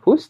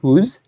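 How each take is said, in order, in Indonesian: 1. Kata ini berakhir dengan bunyi s. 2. Kata ini berakhir dengan bunyi z. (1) "bukan whose" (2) "tapi kita baca z"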